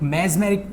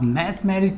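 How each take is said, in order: First: The first syllable ends with a z sound. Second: The first syllable ends with an s sound.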